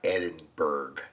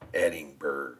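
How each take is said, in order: First: The ending sounds like 'berg'. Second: The ending sounds like 'bruh'. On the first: The speaker calls it wrong. "not Edinburgh" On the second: The speaker calls it right. "the berg is actually bruh"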